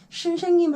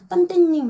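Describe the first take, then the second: First: The word is said with its s sounds. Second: The s sounds are replaced by t sounds. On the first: The speaker calls it right. "선생님 할 때도 있고" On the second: The speaker calls it wrong. "시옷 발음을 하기가 어려워서 다른 발음으로 이제 바꿔서 대치해서"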